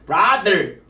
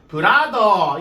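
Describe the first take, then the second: First: It has a curled R and a TH sound. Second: It is flat, in Korean-style pronunciation.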